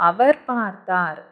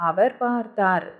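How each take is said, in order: No difference in how they are said.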